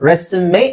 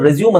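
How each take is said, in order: First: The word ends with a sounded final vowel. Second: The word ends without a final vowel sound. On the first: The speaker calls it right. "ರೆಸ್ಯುಮೆ ಅಂತ ಹೇಳ್ಬೇಕು, ರೆಸ್ಯೂಮ್ ಅಲ್ಲ" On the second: The speaker calls it wrong. "ತುಂಬಾ ಜನ ರೆಸ್ಯೂಮ್ ರೆಸ್ಯೂಮ್ ಅಂತ ಹೇಳ್ತಾರೆ"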